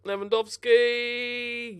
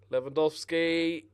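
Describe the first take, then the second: First: Slow, high stretched-out name; drawn-out dread. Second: Said in the usual way. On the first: Real, not acted. Gamer watches the rival striker bear down, dreading. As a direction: drag the name out in alarm.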